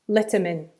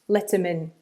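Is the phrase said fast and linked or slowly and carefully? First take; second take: fast; fast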